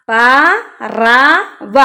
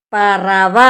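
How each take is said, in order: First: പറവ stretched very slowly, syllable by syllable; slow, careful teacher's reading of പറവ; drawn-out reading. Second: Said in the usual way. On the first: Shown as a demonstration. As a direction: sound out പറവ slowly for children.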